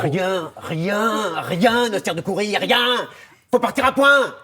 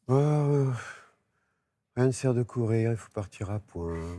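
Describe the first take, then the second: First: It sounds angry and loud. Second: It sounds thoughtful and hesitant.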